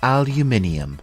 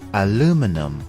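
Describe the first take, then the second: First: It is said with a British English pronunciation. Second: It is said with an American English pronunciation.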